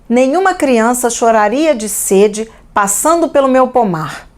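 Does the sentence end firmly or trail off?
firmly. The sentence ends with a firm, closed fall. The thought is complete and closed.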